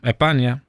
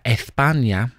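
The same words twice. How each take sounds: First: It is said loosely, with sounds dropped. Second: Every sound is pronounced clearly, as in standard Spanish. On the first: "I Andalusien säger man España" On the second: "som man fick lära sig i skolan om att man ska säga España"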